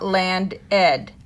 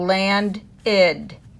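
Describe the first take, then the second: First: The ending is a bare consonant, no extra syllable. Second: The ending is a separate 'id' syllable. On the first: The speaker calls it wrong. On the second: The speaker calls it right. "the ed makes id"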